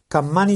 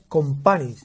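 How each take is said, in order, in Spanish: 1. La primera vocal se pronuncia como 'a'. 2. La primera vocal se pronuncia como 'o'. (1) "has dicho dos veces Campani" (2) "y es Compani"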